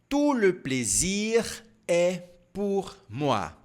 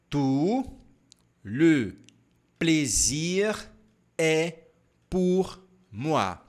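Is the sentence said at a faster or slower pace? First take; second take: faster; slower. First: The sentence is said at normal speed. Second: The sentence is said more slowly.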